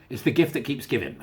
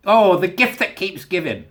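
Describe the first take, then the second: First: Said in the usual way. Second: A slow, drawn-out, louder gleeful oh; gleeful relish. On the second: Real, not acted. Relishing another Scotland story, slow and gleeful. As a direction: savour it slowly with glee.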